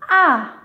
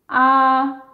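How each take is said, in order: First: The pitch falls sharply from high to low. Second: The pitch stays high and level throughout. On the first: "qui part du niveau cinq, le plus haut vers le plus bas" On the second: "c'est un ton haut aigu. Donc, il est haut et plat"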